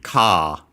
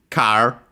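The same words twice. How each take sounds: First: It has no R and a longer vowel. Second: It is said with an R sound.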